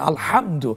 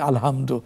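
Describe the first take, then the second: First: The h comes from deep in the throat. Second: The h is a plain, light breath sound. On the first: All praise. The speaker calls it right. "হা কণ্ঠনালীর মাঝখান থেকে উচ্চারিত" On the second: Total destruction. The speaker calls it wrong. "Practice না করে কি হবে আলহামদু অর্থ চেঞ্জ হয়"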